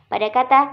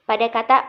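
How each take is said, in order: Both takes have the same delivery.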